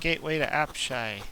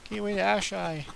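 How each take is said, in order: First: The last word has a P sound. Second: The last word has no P sound.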